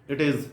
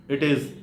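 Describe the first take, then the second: The two takes are said the same way.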